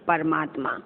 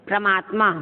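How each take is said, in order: First: Said in the usual way. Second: "परमात्मा" as pramaatma; pra- instead of par- in "परमात्मा"; wrong first cluster. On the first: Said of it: "परमात्मा बोलते हैं ना". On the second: Shown as a demonstration. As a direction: run p and r together in "परमात्मा". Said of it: "परमात्मा तो नहीं बोलते हम लोग".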